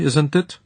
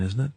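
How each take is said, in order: First: "isn't it" with a high rising Central European tag; Central European accent. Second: Said in the usual way. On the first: Acted. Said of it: "said in a thick Central European accent".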